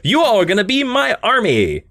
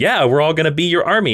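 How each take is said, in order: First: High, declamatory mock order; acted villain command. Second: Lightly voiced compliant henchmen; acted gym strongmen. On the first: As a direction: proclaim it as a villain recruiting followers. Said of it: "And he's like". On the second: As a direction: agree as a readily obedient crowd. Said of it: "And they're like".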